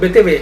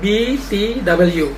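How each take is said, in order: First: The letters are said with Indonesian letter names. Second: The letters are said with English letter names. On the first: "tetapi disebut B T W" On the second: "Kenapa tidak disebut B T W"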